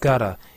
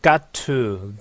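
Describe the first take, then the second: First: The two words are run together into one. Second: The two words are said separately and fully.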